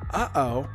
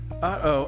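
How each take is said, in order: First: The words are read with little emphasis. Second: The words are read with strong emphasis. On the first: The speaker calls it wrong. "I think I said it wrong" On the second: The speaker calls it right. "I was supposed to put more emphasis on"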